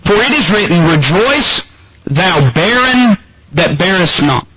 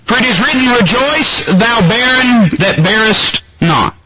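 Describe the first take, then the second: First: It is read slowly. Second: It is read at a normal pace.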